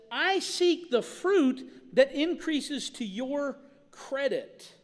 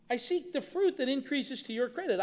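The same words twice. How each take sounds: First: "I seek the fruit that increases to your credit" drawn out very slowly, each word weighted; slow emphatic quote. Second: Said in the usual way. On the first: Shown as a demonstration. Pastor dwelling on the verse to the congregation, slow and weighty. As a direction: lean on every word of "I seek the fruit" at half speed. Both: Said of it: "But he says".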